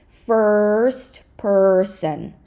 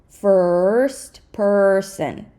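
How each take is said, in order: Both takes have the same delivery.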